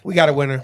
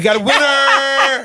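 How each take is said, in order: First: It is said flatly, without much enthusiasm. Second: It is said with a lot of enthusiasm.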